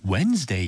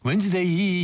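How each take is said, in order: First: "Wednesday" said as an American would; American-style pronunciation. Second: "Wednesday" in a Korean accent, last syllable drawn out; Korean-style pronunciation. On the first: DJ showing listeners the native-like model, American-style "Wednesday". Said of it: "미국 사람처럼 Wednesday 이렇게 안 된다고". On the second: DJ reassuring nervous learners, Korean-accented "Wednesday". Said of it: "한국식 발음도 있어요". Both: Shown as a demonstration.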